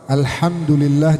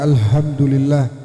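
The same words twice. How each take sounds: First: The h is a harsh, breathy throat sound. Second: The h is a plain, light h sound. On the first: All praise belongs to God. The speaker calls it right. "yang ha jadi ha" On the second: The meaning turns into death for God. The speaker calls it wrong. "menjadi kematian bagi Allah"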